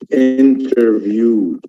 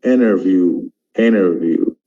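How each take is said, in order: First: INTERVIEW slowly, with a clearly sounded T; British-style INTERVIEW, T kept; British pronunciation. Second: INTERVIEW said as "innerview"; American-style INTERVIEW, T dropped; American pronunciation. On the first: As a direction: keep the T after the N in INTERVIEW. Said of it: "but in America they have". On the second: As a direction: skip the T after the N in INTERVIEW. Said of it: "but in America". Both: Shown as a demonstration.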